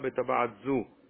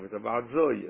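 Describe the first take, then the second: First: The last word ends in a plain 'o' vowel. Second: The last word ends with an added 'y' sound. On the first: "אל תגידו לה בטבעת זו" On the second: "תגידו לה בטבעת זוי, ככה הוא אומר"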